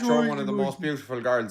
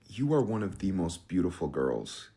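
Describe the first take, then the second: First: It is spoken in an Irish accent. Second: It is spoken in an American accent. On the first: The compliment does not sound good. The speaker calls it wrong. "here's the exact same compliment in an Irish accent" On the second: The compliment sounds genuine and impressive. The speaker calls it right. "I'll give you a compliment in an American accent"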